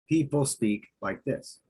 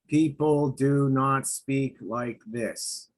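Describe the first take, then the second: First: It is said naturally, with lively emotion. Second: It is said flat and robotic, without emotion.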